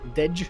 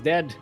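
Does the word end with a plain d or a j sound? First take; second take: j sound; d sound. First: The word ends in a j sound. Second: The word ends in a plain d sound.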